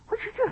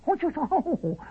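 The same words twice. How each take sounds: First: The voice sounds like a strange, high bird. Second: The voice comes through the nose.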